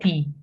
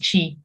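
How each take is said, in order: First: It is said with a Portuguese 'ti' sound. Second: It is said with a Brazilian 'chi' sound.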